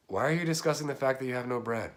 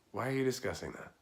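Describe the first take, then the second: First: Said in the usual way. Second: Mock exasperated. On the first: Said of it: "this is the face yet". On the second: Shown as a demonstration. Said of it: "And this is the face yet".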